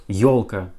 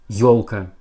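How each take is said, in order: The two takes are said the same way.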